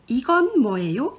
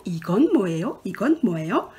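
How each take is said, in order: First: Quick run-through of 이건 뭐예요; fast model sentence. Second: Said in the usual way. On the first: Shown as a demonstration. Teacher modelling the first sentence for students, quick. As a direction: rattle off 이건 뭐예요 at speed. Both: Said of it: "La première phrase".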